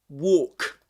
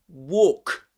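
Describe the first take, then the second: No difference in how they are said.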